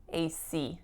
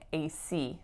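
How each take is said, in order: Both takes have the same delivery.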